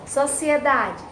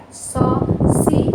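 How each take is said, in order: First: Said in the usual way. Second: "Sociedade" slowly as so, ci, e, da, de; loud "Sociedade" with pauses between syllables. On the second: Shown as a demonstration. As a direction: separate the ci from the e in "Sociedade". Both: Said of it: "o si se separa do E".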